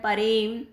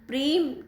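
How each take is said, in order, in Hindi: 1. यह शब्द एक अशुद्ध ध्वनि के साथ बोला गया है। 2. यह शब्द मानक रूप में बोला गया है। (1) "उच्चारण से संबंधित दोष" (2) "प्रेम की जगह"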